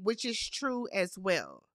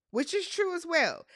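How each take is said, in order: First: Said in the usual way. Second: Much higher-pitched restatement; emphatic repeat. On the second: Real, not acted. Host repeating her point to back Johnny, emphatic and high. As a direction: say it over, pitched right up for emphasis.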